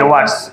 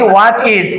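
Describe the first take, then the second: First: It is said as one contracted word. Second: It is said as two full words. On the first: "এটা হয়ে গেল হোয়াটস" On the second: "এই হোয়াট ইজ"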